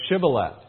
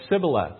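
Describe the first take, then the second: First: The word begins with an sh sound. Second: The word begins with a plain s sound. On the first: The speaker is from the home group. The speaker calls it right. "instead of Shibboleth" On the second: The speaker is from the rival group. The speaker calls it wrong. "They could not pronounce that SH sound. And they said Sibboleth"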